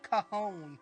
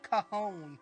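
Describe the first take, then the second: First: The name is said like 'ca-hone' with an h sound. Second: The name is said like 'ca-hone' with an h sound.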